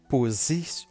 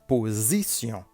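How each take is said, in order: First: The middle consonant is a hissing S sound. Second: The middle consonant is a buzzing Z sound. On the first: The speaker calls it wrong. "On ne dit pas position" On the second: The speaker calls it right. "entre deux voyelles, la lettre S se prononce comme Z"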